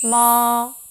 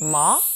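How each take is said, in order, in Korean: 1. 높은 음이 길게 유지돼요. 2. 음 높이가 짧게 휙 올라가요. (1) "일성은 높은 음을 길게 빼줍니다" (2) "이성은요, 짧게 감아쳐 올라가는데요"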